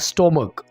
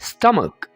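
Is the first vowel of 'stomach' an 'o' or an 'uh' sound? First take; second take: o; uh. First: The first vowel sounds like 'o'. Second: The first vowel sounds like 'uh'. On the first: The speaker calls it wrong. "ये गलत तरीका है" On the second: The speaker calls it right. "बल्कि आप कहेंगे स्टमक"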